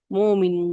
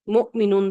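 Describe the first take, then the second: First: مومنون with a long unbroken first vowel; hamza turned to waw. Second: مؤمنون with a short first vowel cut by a glottal stop; hamza pronounced. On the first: Teacher showing students the changed word, long waw. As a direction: stretch the start of مومنون smoothly, no catch. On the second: Teacher showing students the original word, hamza pronounced. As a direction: catch the throat in مؤمنون after the first vowel. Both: Shown as a demonstration. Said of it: "مؤمنون سے مومنون بن گیا".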